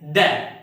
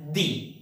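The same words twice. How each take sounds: First: "the" said like "duh", short neutral vowel; "the" as thuh. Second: "the" said like "dee", long ee vowel; "the" as thee. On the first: Teacher shows students the other way, "the" as thuh. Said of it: "some people pronounce this word as". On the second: Teacher shows students one common way, "the" as thee. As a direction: say "the" with an ee, rhyming with see. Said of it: "Some people pronounce this word as". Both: Shown as a demonstration.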